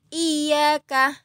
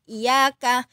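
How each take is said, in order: First: The middle consonant is held long. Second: The middle consonant is short and light. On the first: The speaker calls it right. "Harusnya iyaka" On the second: The speaker calls it wrong. "bukan iyaka, tapi e, ditahan dulu"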